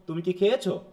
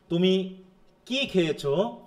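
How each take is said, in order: First: কি passed lightly, খেয়েছো carrying the weight; stress on খেয়েছো. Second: কি punched, খেয়েছো left light; stress on কি. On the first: Teacher showing students a yes-no question, stress on খেয়েছো. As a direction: put the emphasis on খেয়েছো. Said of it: "না খেয়েছোর উপরে?". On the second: Teacher showing students a wh-question, stress on কি. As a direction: lean hard on the word কি. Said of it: "কি এর উপরে". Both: Shown as a demonstration.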